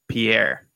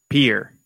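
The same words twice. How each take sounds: First: The name does not sound like 'peer'. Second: The name sounds like the word 'peer'. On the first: This is the version learned from a list of capitals. "When I learned all the capitals, I learned it as Pierre" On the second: This is the version the locals use. "But the people in South Dakota pronounce it Pierre. P-E-E-R"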